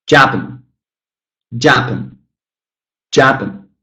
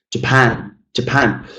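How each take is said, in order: First: "Japan" punched on JA, pan swallowed; stress on wrong syllable. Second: Neglect Ja, weight on PAN in "Japan"; stress on second syllable. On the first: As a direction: say "Japan" as JAP-un, falling. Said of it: "stress the wrong syllable". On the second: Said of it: "the stressed syllable is the second one". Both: Shown as a demonstration.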